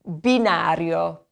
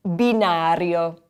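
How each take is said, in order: First: Binario, slow and clear; bee-NAH-ryo, slow in binario; teacher modeling binario; model word. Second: Binario again, slow; bee-NAH-ryo repeated; slow repetition of binario; repeat for class. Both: Shown as a demonstration. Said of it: "the word for the train platform".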